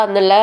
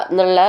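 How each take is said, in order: Both takes have the same delivery.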